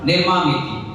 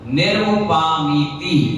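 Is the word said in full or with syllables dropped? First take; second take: syllables dropped; full. First: The middle syllables are merged into a clipped 'ma'. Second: Every syllable is said, including the 'va-pa' sounds. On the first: The speaker calls it wrong. "और हम क्या कहते हैं?" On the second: The speaker calls it right. "इसमें एक शब्द आया है अर्घम निर्वपामीति"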